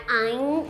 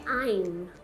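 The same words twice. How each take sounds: First: The word ends without the lips closing. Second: The word ends with the lips closed. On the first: The speaker calls it wrong. "não é I'm" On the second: The speaker calls it right. "Fecha a boca, é I'm"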